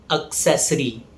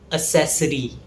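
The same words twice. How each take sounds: First: The stress is on the second syllable. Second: The stress is not on the second syllable. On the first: The speaker calls it right. "The stress falls on the second syllable ses" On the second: The speaker calls it wrong. "It's often mispronounced as"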